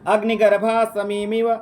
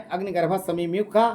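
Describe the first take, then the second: First: Slow, measured Sanskrit reading; stately, drawn-out question reading; formal recitation. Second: Said in the usual way. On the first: Real, not acted. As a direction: read it out word by word, vowels held. Reads quiz question in Sanskrit.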